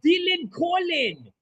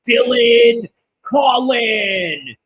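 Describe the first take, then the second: First: The name is said with an Irish accent. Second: The name is said with an American accent. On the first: "now that sounds Irish" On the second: "he says it all like American, like"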